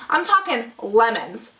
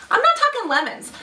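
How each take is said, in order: First: Slow, weighty "talking lemons"; emphatic "talking" for huge lemons; stress on talking. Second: "not" jumps much higher, then falls; mock dismissive "not talking lemons"; stress on not. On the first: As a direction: lean on "talking", drawn out. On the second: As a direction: hit "not" high and hard. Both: Shown as a demonstration.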